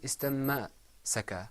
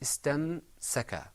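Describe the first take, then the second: First: An a vowel follows the m sound. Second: No vowel follows the m sound. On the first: The speaker calls it wrong. "It wasn't istamma-saka" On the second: The speaker calls it right. "It was istamsaka"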